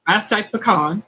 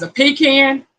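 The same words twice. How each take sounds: First: "pecan" said puh-KAHN, with an ah. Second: "pecan" said PEE-CAN, like a can of peas; higher "pecan" as two words, PEE-CAN. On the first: Host telling viewers how they say it, puh-KAHN. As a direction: say "pecan" as puh-KAHN, not pee-can. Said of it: "I tell you how I say it". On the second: Host mocking the other way of saying it, PEE-CAN. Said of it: "is one of two different things". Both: Shown as a demonstration.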